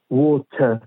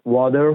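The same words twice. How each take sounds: First: ووت with the final R dropped; non-rhotic "water" as ووت; British-Australian pronunciation. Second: وادر with a thick American R at the end; American "water", R fully sounded; American pronunciation. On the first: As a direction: say ووت the British way, open vowel ending, no R. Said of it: "یعنی آرش تلفظ نمیشه". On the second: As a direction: say وادر the American way, flapped middle, strong final R. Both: Shown as a demonstration.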